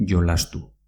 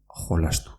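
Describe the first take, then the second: First: "jolastu" as yolastu, like the y in ayuda. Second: "jolastu" as kholastu; j like Spanish jota. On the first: Teacher shows the preferred Basque form, j as y. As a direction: say "jolastu" with a y sound at the start. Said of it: "parecida a la pronunciación de la letra Y". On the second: Teacher shows the other accepted form, j as jota. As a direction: say "jolastu" with a throaty h, as in junta. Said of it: "también puedes decirlo". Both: Shown as a demonstration.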